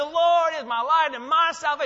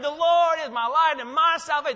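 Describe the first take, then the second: First: It is said in a joyful, celebrating way. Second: The same.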